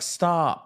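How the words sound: It is said in a cute, playful way.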